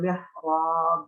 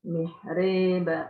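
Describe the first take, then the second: First: The long vowel is a clear open a. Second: The long vowel is tilted toward e. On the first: "bil fathah" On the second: "Jadi imalahnya bagaimana?"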